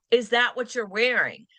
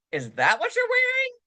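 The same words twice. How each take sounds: First: Said in the usual way. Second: Pitched way up in disbelief; shocked disbelief. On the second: Shown as a demonstration. Friend judging an outfit, high shocked disbelief. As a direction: say it aghast at the outfit.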